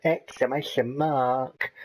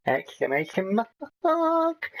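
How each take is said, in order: First: Said in the usual way. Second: Exclamation said flat, then "mark" leaps much higher; mock excited squeak on "mark"; reading out punctuation with a sudden high "mark"; pitch jump on mark. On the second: Shown as a demonstration.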